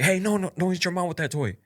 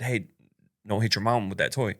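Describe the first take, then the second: First: Firm warning. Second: Said in the usual way. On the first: Retold or imitated. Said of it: "I didn't, like, yell at him". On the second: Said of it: "I just basically said".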